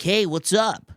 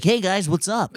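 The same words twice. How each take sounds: First: High bright hey what's up; peppy American greeting. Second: High, bright surfer-style greeting; landlord's American voice. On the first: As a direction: act the eager American-sounding Indian guy. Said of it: "Or they're like". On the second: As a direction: imitate him saying hey guys like a chill American. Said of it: "but he's like". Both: Retold or imitated.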